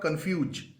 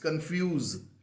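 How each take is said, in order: First: The word ends with a J sound. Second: The word ends with a Z sound. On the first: The speaker calls it wrong. "There is no J once again. It's not confuge" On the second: The speaker calls it right. "ending the word with a Z sound"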